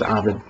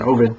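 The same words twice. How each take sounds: First: The first vowel differs from the O in Odin. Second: The first vowel matches the O in Odin. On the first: This is the common way of saying the name. "most people say his name is Ovid" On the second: This follows the Latin pronunciation of the name. "I like the pronunciation Ovid, like kind of like Odin"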